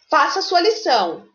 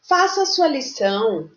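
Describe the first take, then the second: First: The command is said in a firm, forceful tone. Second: The command is said in a soft, mild tone. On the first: The speaker calls it right. "a gente usa um tom mais firme" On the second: The speaker calls it wrong. "você não diz assim"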